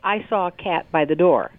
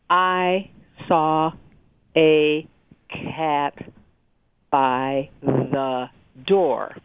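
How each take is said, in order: First: It is read smoothly as one phrase. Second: Each word is read separately with breaks.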